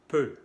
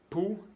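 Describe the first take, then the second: First: PEU with rounded e, louder; French eu sound. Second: POU with back oo, pitched up; French ou sound. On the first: Teacher contrasting peu with pou, rounded e. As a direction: say PEU as e through rounded lips. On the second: Teacher contrasting pou with peu, back oo. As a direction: say POU like Spanish pu. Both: Shown as a demonstration. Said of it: "Vamos a comparar los sonidos".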